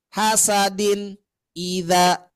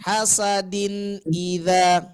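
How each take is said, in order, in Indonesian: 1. Bunyinya berhenti dan ditahan di antara kata. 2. Bunyinya mengalir perlahan di antara kata. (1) "Nah, jangan ya" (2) "Nah, itu"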